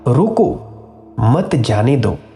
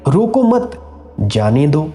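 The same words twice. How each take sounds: First: The pause comes right after रोको. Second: The pause comes right after मत.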